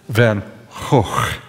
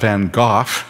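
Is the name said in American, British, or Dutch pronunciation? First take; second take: Dutch; British. First: The name is said with a Dutch pronunciation. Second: The name is said with a British pronunciation. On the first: The speaker calls it right. "The G is pronounced in the Netherlands as a rough H" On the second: The speaker calls it wrong. "that's British English"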